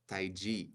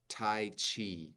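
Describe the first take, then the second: First: It is said with a Mandarin Chinese pronunciation. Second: It is said with an American English pronunciation. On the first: "But in Chinese" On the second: "in America"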